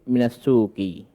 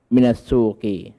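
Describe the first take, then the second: No difference in how they are said.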